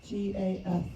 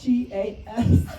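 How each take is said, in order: First: "F" comes out instead of the S, tongue too swollen to hiss; swollen tongue lisp. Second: Loud, slow, straining to push the S out in "G A S"; "G A S" spelled with effort, the S finally forced. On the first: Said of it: "did you say G A F?". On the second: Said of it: "spell, spell that again?". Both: Real, not acted.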